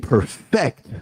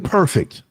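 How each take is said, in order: First: The stress is on the second syllable. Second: The stress is on the first syllable.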